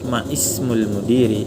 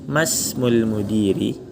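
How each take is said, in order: First: The vowel of ismul starts separately after ma. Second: Ma runs straight into smul with no break. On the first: This is the original full form. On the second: The connecting hamzah is skipped.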